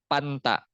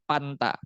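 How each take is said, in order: Both takes have the same delivery.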